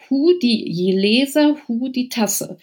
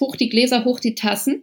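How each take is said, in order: First: It is said in the Kölsch dialect form. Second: It is said in the standard German form. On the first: "ich versuch's mal" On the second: "es heißt"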